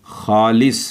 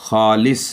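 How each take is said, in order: Both takes have the same delivery.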